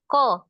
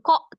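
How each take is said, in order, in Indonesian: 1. Suku kata itu tidak memiliki hamzah. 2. Suku kata itu memiliki hamzah. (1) "dihilangin hamzah sukunnya aja" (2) "Jangan ko"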